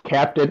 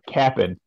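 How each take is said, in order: First: Both syllables are said fully and clearly. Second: The second syllable is clipped short to 'cap'n'. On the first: The speaker calls it wrong. "Oh, I'm sorry. I'm sorry" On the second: The speaker calls it right. "say it right"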